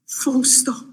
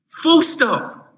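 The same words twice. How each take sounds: First: "full stop" breathed out in a whisper. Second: "full stop" lifted high and hit hard; emphatic full stop. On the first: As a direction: let "full stop" fall to a hush. Repeating the point softly. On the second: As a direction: land "full stop" like a final verdict. Emphatic sermon point. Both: Acted.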